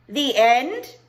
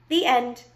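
First: High, loud "The end?" with END rising steeply; disbelieving question. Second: Said in the usual way. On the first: Acted. Abilene doubts the storyteller, rising disbelief on "end". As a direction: question it with a sharp rise on "end". Child questions the abrupt ending.

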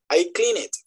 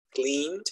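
First: Clean it in two syllables for cleaned; wrong -ed pronunciation. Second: Cleaned in one syllable, softer, ending in D; correct -ed pronunciation. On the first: Teacher showing what not to say, cleaned mispronounced as clean it. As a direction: add a vowel so cleaned becomes clean it. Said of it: "la pronunciación no es". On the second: Teacher modelling the right form, cleaned as one syllable with D. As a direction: run the N of cleaned straight into D. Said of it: "Entonces sería". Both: Shown as a demonstration.

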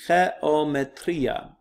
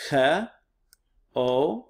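First: "geometria" as one slow Greek word, ghe-o-me-TRI-a; "geometria" drawn out but continuous; syllables joined. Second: "geometria" slowly as he, o, me, tria, long pauses; "geometria" broken into separate syllables. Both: Shown as a demonstration. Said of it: "broken them up into syllables".

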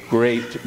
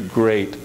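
Both takes have the same delivery.

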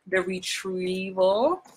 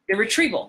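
First: THE RETRIEVAL stretched slowly with a rising end; drawn-out title reveal. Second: Said in the usual way. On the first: Acted. Actor plugging her movie on Netflix, slow teasing title reveal. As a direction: draw out "The Retrieval" like a teaser.

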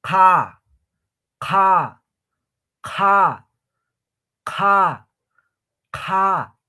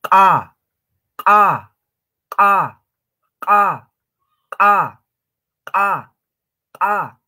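First: "Ka" as qha, loud with blown air; aspirated Q. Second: "Ka" as q'a, a high, loud pop; ejective Q. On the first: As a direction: blow through "Ka" from the back of the mouth. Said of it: "Ahora, como tipo soplando". (qha aspirada, como soplando) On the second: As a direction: burst "Ka" from the back as if exploding something. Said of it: "haciendo reventar o explotar algo". (q'a eyectiva, como reventando algo) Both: Shown as a demonstration.

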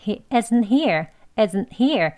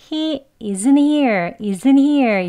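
First: Tiny stop between isn't and here; isn't here with an unreleased t before here; slight break. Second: Isn't here run together with no stop, louder and higher at first; wrong take, isn't here slurred into one flow; smoothly linked. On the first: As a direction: cut the air after isn't, then say here. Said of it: "살짝 끊는". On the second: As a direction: glide from isn't straight into here. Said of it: "이렇게 부드럽게가 아니고요". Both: Shown as a demonstration.

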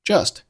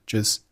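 First: Said in the usual way. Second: "just" with the final t unreleased; lost plosion. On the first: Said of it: "Just结尾的t失去爆破". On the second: Shown as a demonstration. Teacher showing learners lost plosion, "just" without t burst. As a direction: end "just" on the s, t held back. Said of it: "结尾的t失去爆破".

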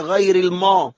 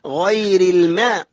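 First: الماء as heavy back-vowelled "maw"; thick mim. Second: الماء as light front-vowelled "mae"; thin mim. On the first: Retold or imitated. Teacher mimics wrong reading, heavy m in الماء. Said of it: "بعض الناس يقول لك". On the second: Shown as a demonstration. Teacher shows students, thin light m in الماء. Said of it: "الميم هنا رقيقة".

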